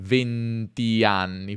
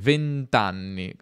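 First: The final i of venti is fully said. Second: The final i drops, merging into anni. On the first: The speaker calls it wrong. "non venti anni" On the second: The speaker calls it right. "si scrive anche venti apostrofo anni"

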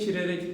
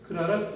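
First: The word is said with front vowels. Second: The word is said with back vowels. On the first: The speaker calls it wrong. "kirerek demiyoruz" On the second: The speaker calls it right. "kırarak diyoruz"

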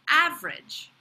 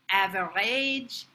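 First: The word is said with an English accent. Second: The word is said with a French accent. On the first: "the pronunciation in English" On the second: "how a French person might say it"

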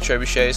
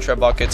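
First: The middle consonant is a soft 'sh' sound. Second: The middle consonant is a hard 'k' sound. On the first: The speaker calls it right. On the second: The speaker calls it wrong.

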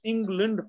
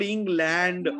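First: The last syllable is reduced to lund. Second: The last syllable has a full land vowel. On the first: The speaker calls it right. "It's England" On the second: The speaker calls it wrong. "So it's not England"

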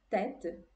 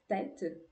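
Both takes have the same delivery.

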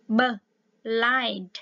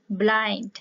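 First: The b and l sounds are separated. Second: The b and l sounds are blended together. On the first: The speaker calls it wrong. "đừng có tách nó ra là b blind" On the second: The speaker calls it right. "mà là blind"

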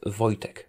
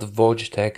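First: The name is said as 'voy-tech'. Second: The first syllable is not said as 'voy'. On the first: The speaker calls it right. "You can pronounce it as Voy, as in V-O-Y, dash tech" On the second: The speaker calls it wrong. "It's not Wojtek"

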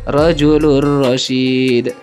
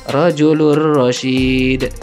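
Both takes have the same delivery.

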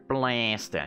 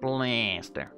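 First: It is said in a British accent. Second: It is said in an American accent.

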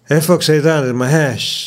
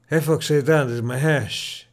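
First: The voice sounds processed, with an even level. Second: The voice sounds raw, without added processing. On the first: "this is with the Blue Voice enabled" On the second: "this is with the Blue Voice turned off"

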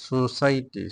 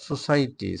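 Both takes have the same delivery.

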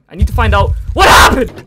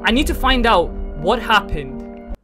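First: It is read excitedly, with strong emphasis. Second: It is read flatly, without emphasis.

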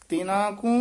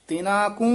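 Both takes have the same delivery.

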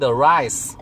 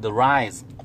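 First: The word ends with a hissing s sound. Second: The word ends with a buzzing z sound. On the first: The speaker calls it wrong. "You don't say the rice" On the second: The speaker calls it right. "you say the rise"

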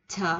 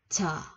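First: The first consonant is plain, without extra air. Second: The first consonant has a puff of air. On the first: "Việt Nam mình chữ chờ nói rất là bình thường" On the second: "chữ chờ của Hàn Quốc nó phải xì xì xì ra gió một chút"

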